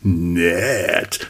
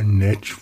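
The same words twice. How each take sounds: First: It is said in an excited, flirtatious tone. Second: It is said in a dull, bored tone.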